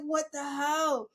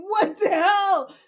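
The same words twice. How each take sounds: First: Said in the usual way. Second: Loud laughing disbelief. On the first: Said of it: "I was just like". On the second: Retold or imitated. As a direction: laugh it out, stunned. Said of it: "I was like".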